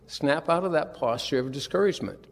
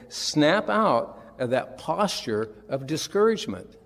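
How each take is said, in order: First: Said in the usual way. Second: Slow emphatic. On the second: Shown as a demonstration. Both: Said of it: "It's basically saying".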